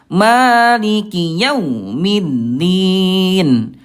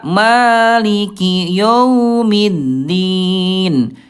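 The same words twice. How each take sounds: First: The 'aw' sound is cut off abruptly. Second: The 'aw' sound becomes a plain 'o'. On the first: "dia dihantakan maliki yau, itu kurang tepatnya" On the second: "maliki yo, jadi ke o"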